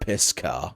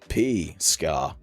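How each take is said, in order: First: The first part runs together as 'piss'. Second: The first part is a separate 'P' sound. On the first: The speaker calls it wrong. "not piss car" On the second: The speaker calls it right. "it's P for your information"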